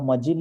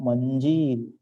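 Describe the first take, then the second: First: It is said without a nasal before j. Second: It is said with a nasal before j. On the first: The speaker calls it wrong. "यहाँ मजिल लिखा हुआ है" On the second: The speaker calls it right. "बिंदु लगाएंगे अनुसार का"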